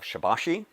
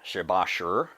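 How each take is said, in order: First: The word ends in an 'ee' sound. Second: The word ends in an 'ur' sound. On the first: This is the common pronunciation most people use. "everybody seems to lean into shibashi" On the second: This is the more appropriate pronunciation. "shibashur actually, uh, is the more appropriate pronunciation"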